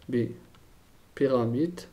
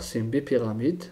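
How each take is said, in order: First: "Bipyramide" drawn out syllable by syllable; slow, spelled-out repeat. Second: Said in the usual way. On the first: Shown as a demonstration. Teacher repeating the term for the class, slowly. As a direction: say "Bipyramide" very slowly so students can write it.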